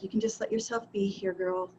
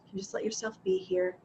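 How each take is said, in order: First: Soft, falling, talking yourself down; calm yourself gently, ending low; soothing self-talk. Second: Soft and higher with a lifting end on "here"; gentle self-reassurance. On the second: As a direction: coax yourself kindly, rising on "here". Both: Retold or imitated. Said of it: "And then I was just like".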